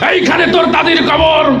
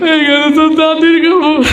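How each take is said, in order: First: It is recited in a forceful, speech-making manner. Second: It is recited while crying. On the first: The reciter is used to giving speeches. "নেতা এসে কবিতা আবৃত্তি করছে এইভাবে" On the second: The reciter is overcome by emotion. "Emotional টাইপের ... কান্নাকাটি শুরু করছে"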